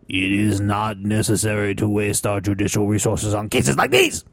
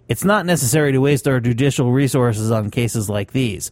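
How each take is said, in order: First: It is said in a put-on Chinese accent. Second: It is said in the speaker's normal accent.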